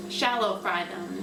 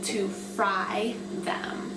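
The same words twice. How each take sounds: First: Shallow said with extra weight, correcting; stress on shallow. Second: Said in the usual way. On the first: Shown as a demonstration. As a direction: lean on Shallow to set it apart from deep. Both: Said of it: "They're not gonna be deep fried".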